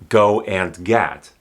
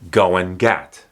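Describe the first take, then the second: First: The word 'and' is pronounced fully. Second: The word 'and' is reduced to 'n'. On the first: "Instead of" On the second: "It might just sound like N"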